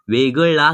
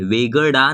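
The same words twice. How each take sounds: First: वेगळा with the Marathi retroflex ळ, tongue curled back; correct ळ. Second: वेगळा with an ordinary l instead of ळ; wrong plain l. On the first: Teacher modelling the right ळ in वेगळा. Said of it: "वेगळा नहीं कहना है". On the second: Teacher showing the mistake in वेगळा. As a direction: say वेगळा with a flat Hindi l. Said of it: "नहीं कहना है". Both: Shown as a demonstration.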